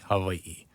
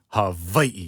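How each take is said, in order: First: The middle consonant is a softened v. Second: The middle consonant is a hard v. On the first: "you soften the V sound" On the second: "it's like a very hard V"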